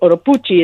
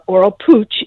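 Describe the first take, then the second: First: The name has a Spanish pronunciation. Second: The name has an American English pronunciation. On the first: "is how you would say it in Spanish" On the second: "is the American way of saying it"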